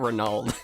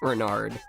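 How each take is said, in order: First: The second consonant is an L sound. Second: The second consonant is an R sound. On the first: The speaker calls it wrong. "It's not Renald" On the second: The speaker calls it right. "Renard. Thanks. Keeping me honest"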